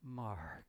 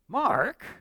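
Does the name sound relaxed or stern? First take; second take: relaxed; stern. First: The name is said in a relaxed, warm tone. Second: The name is said in a stern, pointed tone. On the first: Everything is fine. "I know everything's okay" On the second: Something is wrong. "something's up here. Answer carefully"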